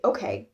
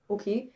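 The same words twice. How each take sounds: First: It is said strongly, with an American accent. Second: It is said lightly, with an e-like German vowel. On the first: "especially in American English, we'd say okay. Like you pronounce it very strongly" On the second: "in German, it's kind of just like okay, ... almost like you spell it with an e"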